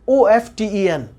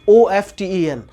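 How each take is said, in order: The two takes are said the same way.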